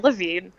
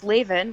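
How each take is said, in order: First: The name does not rhyme with 'engraven'. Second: The name rhymes with 'engraven'. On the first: The speaker calls it wrong. "or Levine" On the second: The speaker calls it right. "rhymes with engraven"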